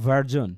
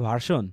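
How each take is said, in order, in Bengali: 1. মাঝের ব্যঞ্জনটি একটি ঘোষযুক্ত z ধ্বনি। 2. মাঝের ব্যঞ্জনটি একটি সাধারণ s ধ্বনি। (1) "ওই যে এসের উচ্চারণটা এখানে জ হয়" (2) "আমরা কিন্তু এটা বলি বেটার ভার্সন, না"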